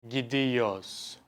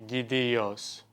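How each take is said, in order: The two takes are said the same way.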